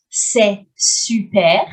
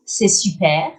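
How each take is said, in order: First: Slow, careful C'est super with a rising end; teacher's slow demo; slow model phrase. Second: Said in the usual way. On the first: Shown as a demonstration. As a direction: say "C'est super" slowly so learners can copy it.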